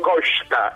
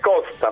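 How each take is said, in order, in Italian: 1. La s suona come sh. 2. La s suona come una s semplice. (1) "E nemmeno Costa" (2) "è Costa, punto"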